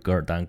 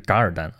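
First: The first syllable is pronounced ge. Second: The first syllable is pronounced ga. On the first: The character is guessed from its phonetic component. The speaker calls it wrong. "秀才认字念半边，那就是噶尔丹" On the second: It follows the original Mongolian pronunciation. The speaker calls it right. "但其实人家是念嘎，所以是噶尔丹"

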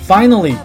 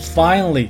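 First: The middle vowel is pronounced. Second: The middle vowel is dropped.

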